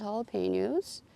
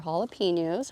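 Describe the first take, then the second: First: JALAPENOS with "pay" in the third syllable; first pronunciation. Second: JALAPENOS with "pee" in the third syllable; alternative pronunciation. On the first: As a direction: say jalapenos as hah-luh-PAY-nyohz. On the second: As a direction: say jalapenos as hah-luh-PEE-nyohz. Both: Shown as a demonstration. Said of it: "however you say it".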